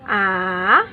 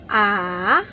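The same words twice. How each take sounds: First: It is said with the third tone. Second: The same.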